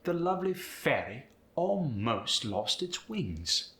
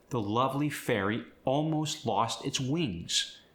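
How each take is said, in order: First: Higher British lilt, fairy keeping its EE before almost; British 'lovely fairy almost lost its wings'; lilting British, rounded vowels; British accent. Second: Said in the usual way. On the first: Shown as a demonstration. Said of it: "so listen".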